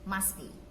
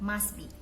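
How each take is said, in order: The two takes are said the same way.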